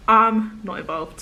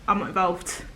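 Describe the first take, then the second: First: "I'm not involved" drawn out slowly and louder; emphatic refusal. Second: Said in the usual way. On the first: Real, not acted. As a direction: stretch "I'm" and lean on it firmly in "I'm not involved".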